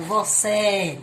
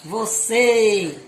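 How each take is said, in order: First: "você" ending in open é, as vo-CÉ. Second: "você" with a loud, held closed ê. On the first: Teacher contrasts the sounds, "você" with open é. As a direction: say "você" with the last vowel wide open. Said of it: "o som aberto". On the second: Teacher contrasts the sounds, "você" with closed ê. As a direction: hold the end of "você" as closed Ê. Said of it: "som fechado". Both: Shown as a demonstration.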